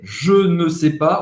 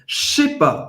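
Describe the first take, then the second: First: Every word is said, including ne. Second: It is said fast, starting with a 'sh' sound. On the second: "quando você falar rápido, vira até assim... com C H"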